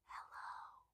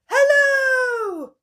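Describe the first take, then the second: First: It is said very quietly. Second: It is said very loudly.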